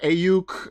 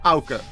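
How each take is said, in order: First: The name begins with an 'ay' sound. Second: The name begins with an 'ow' sound. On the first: The speaker calls it wrong. "I've heard Ayuk" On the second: The speaker calls it right. "That's how you pronounce my name"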